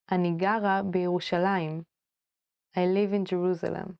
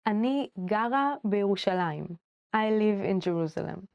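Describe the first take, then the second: No difference in how they are said.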